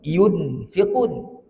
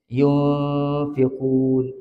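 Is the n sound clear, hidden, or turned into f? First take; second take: clear; hidden. First: The n is pronounced fully and clearly. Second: The n is blended, half nasal and half f. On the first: The speaker calls it wrong. "Kalau bunyi nun" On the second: The speaker calls it right. "Nak bunyi nun betul pun bukan, nak bunyi fa pun bukan, dia campuran"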